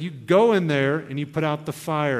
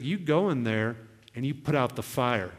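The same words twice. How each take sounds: First: "go" hit louder and firmer; God's insistent command. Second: Low, measured instruction; God's calm command. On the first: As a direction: repeat the order firmly, leaning on "go". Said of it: "He was like". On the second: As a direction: quote God's directive calmly. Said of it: "And he was like". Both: Retold or imitated.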